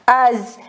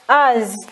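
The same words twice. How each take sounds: First: The word begins directly with a vowel. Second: The word begins directly with a vowel.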